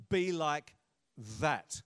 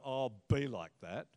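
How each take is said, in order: First: "Be like", a pause, then a weighty THAT; emphatic "be like THAT". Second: Low, offhand "oh, BE like that"; dismissive "be like that". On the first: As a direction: set THAT apart as the thing to imitate. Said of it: "but rather". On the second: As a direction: brush someone off with "be like that". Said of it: "Not, you know". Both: Shown as a demonstration.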